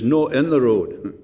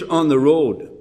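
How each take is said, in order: First: Slow, lightly imitated Scots accent. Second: Said in the usual way. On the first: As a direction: quote him slowly with a touch of Scots. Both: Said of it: "then in his Scots accent".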